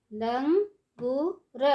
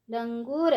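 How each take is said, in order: First: langur stretched slowly, syllable by syllable; slow syllable drill. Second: Said in the usual way. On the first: Shown as a demonstration. Teacher drawing out langur slowly for children. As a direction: draw out langur for the class. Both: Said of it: "ऊंची आवाज़ में कैसे पढ़ेंगे".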